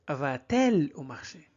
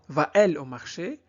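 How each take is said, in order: First: A t sound links the verb and pronoun. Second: No t sound links the verb and pronoun. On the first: The speaker calls it right. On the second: The speaker calls it wrong.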